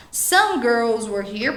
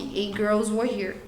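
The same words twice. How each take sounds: First: Some lifted with a rising tune; stress on some. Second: Said in the usual way. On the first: Shown as a demonstration. Teacher models the correct version, some stressed. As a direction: lean on the word some, rising. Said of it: "Você pode falar". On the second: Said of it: "você pode usar essa versão aqui".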